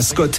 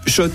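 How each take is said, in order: First: The name begins with an 'sk' sound. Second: The name begins with an 'sh' sound. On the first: The speaker calls it wrong. "Ça fait des années qu'on prononce mal la marque" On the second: The speaker calls it right. "Oui, Shot et pas Scott"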